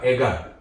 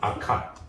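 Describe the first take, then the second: First: The middle consonant is a plain g sound. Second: The middle consonant is an aspirated k sound.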